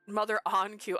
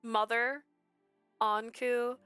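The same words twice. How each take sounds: First: It is said too fast. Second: It is said more slowly.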